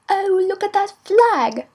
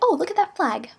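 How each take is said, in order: First: It is said in a British accent. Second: It is said in an American accent.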